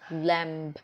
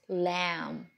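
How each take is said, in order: First: The word ends with an audible b sound. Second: The word ends on the m sound. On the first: The speaker calls it wrong. "it's not lamb" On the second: The speaker calls it right. "but it's lamb, L A M"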